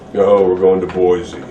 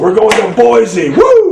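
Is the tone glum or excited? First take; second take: glum; excited. First: It sounds glum and unenthusiastic. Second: It sounds excited and enthusiastic.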